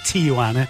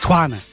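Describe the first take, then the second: First: The middle letter is said as a 'j' sound. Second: The middle letter is said as a 'wa' sound. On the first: The speaker calls it wrong. "it's not called Tijuana" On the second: The speaker calls it right. "You pronounce the J as a Hua"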